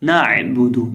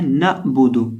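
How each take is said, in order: First: نعبدو with a smooth ع from mid-throat, no jerk; نعبدو said right, no catch on the ع; correct reading. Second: نعبدو with a jerk on the ع; نعبدو said wrong, ع clipped with a glottal catch; wrong reading. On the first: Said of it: "نعبدو نہیں پڑھیں گے". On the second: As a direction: demo the common mistake in نعبدو, stopping hard on the ع. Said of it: "اکثر لوگ اس کو غلط پڑھ دیتے ہیں". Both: Shown as a demonstration.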